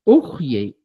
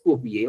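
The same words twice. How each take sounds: First: "ujyey" with a throaty kh; variant pronunciation. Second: "ufyey" with a lip sound before y; correct pronunciation. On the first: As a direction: say "ujyey" as ukh-yey. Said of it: "Algunos pronuncian y dicen". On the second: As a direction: say "ufyey" with f or b, not throaty. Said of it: "la expresión correcta es ufyey". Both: Shown as a demonstration.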